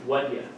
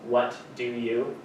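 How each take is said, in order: First: Do nearly vanishes and you becomes ya. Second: Both do and you are said fully.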